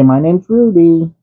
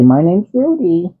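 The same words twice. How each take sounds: First: High, slow prompt for the cat. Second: High, slow repeat for the cat; prompting again. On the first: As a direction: spell out the name slowly for the cat. Dad voicing lines for cat. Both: Pretend.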